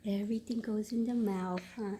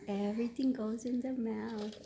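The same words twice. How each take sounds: First: Whisper. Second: Said in the usual way. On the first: Real, not acted. Cooing to baby.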